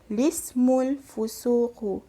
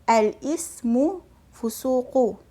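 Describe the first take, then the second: First: It starts directly with 'li', dropping the 'a'. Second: It starts with a glottal stop and full 'al'. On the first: "yang kedua cara bacaan dia kita baca secara lismul fusuqu" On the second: "kita boleh baca dengan al-ismul fusuqu"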